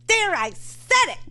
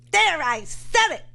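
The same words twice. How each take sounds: First: Much higher mocking radio host voice; mock Mark Levin, pitched way up; imitating Mark Levin. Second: Lightly voiced Mark Levin, higher and drawn out; a mild mock of the radio host; pitched up, slow host impression; imitating Mark Levin. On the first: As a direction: squeak it out like the host. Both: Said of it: "you think when I imitate him".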